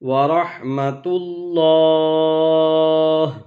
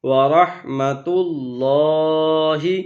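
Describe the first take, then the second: First: The long a is stretched and the final vowel drops. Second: The phrase ends with a short i vowel. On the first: "وقف کی وجہ سے، ... مد عارض ہوگی" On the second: "ہا زیر ہی"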